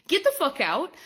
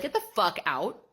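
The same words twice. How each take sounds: First: Higher, louder, in a put-on voice; mock yell. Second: Said in the usual way. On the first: Shown as a demonstration. Kicking out a rule breaker, mock angry yell. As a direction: throw them out with a mock shout. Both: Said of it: "I will be like".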